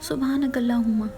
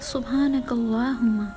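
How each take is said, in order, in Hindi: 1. छोटी मात्राएँ और दोहरे वर्ण जल्दबाज़ी में और धुंधले बोले गए हैं। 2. छोटी मात्राएँ और दोहरे वर्ण साफ़ और स्पष्ट बोले गए हैं। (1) "हम पढ़ते हैं" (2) "जबकि ये है"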